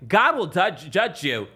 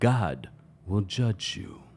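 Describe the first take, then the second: First: It is said quickly and casually, without weight. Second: It is said slowly and dramatically, after a pause. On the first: The speaker calls it wrong. "You can't just say" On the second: The speaker calls it right. "You got to stop, pause, look them in the eye"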